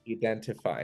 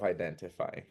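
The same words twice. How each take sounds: First: The word is said with a Brazilian pronunciation. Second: The word is said with a standard pronunciation. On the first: The speaker calls it wrong. "Brazilians will say" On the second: The speaker calls it right. "instead of"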